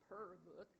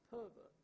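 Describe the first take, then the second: First: Pervert with the r clearly sounded, "perr-vert"; American r. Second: Pervert with no r, "puh-vuht"; Australian or British r-less. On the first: Lecturer contrasting accents for linguists, pervert with American r. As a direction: curl the r in pervert, American style. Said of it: "there wouldn't be a er in". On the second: Lecturer showing the British version, pervert without any r. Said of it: "an Australian or a British person". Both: Shown as a demonstration.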